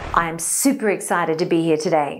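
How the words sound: The sentence is spoken at a low pitch. "listen to this sentence in a low pitch"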